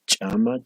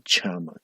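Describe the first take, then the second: First: Chama with a plain ch and a rising end; first take of Chama, simple ch. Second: Chama with a harder, popped ch and a falling end; second take of chama, glottalized ch'; marked ch take. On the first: Teacher contrasting Aymara consonants for the class, plain ch. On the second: Teacher contrasting Aymara consonants for the class, ejective ch'. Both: Shown as a demonstration. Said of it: "Como pueden ver".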